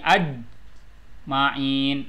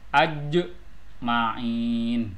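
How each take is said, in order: First: The j sound is cut off abruptly. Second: The j sound is released with a slight bounce. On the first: The speaker calls it wrong. "jangan diberhentikan seperti aj ma'in, itu salah" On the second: The speaker calls it right. "harus di e, qolqolahkan"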